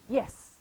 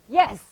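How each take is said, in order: First: It is said at a normal volume. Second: It is yelled very loudly.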